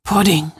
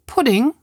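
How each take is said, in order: First: A touch of pride, falling firmly; proud answer. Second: Higher, rising surprised question. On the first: Sophie answering about her bowls, proudly. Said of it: "mit stolz geschwellter Brust". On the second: Lea's mother checking the bowls, surprised. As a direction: ask in disbelief. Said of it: "fragt sie". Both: Acted.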